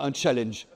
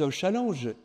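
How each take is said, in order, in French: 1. Le mot se prononce avec des sons anglais. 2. Le mot se prononce avec des sons français. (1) "on entend des abrutis euh, dire un challenge" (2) "au moins qu'ils disent un challenge, comme au douzième siècle"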